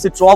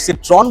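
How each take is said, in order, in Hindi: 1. शब्द के अंत में कोई n ध्वनि नहीं होती। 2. शब्द के अंत में एक स्पष्ट n ध्वनि सुनाई देती है।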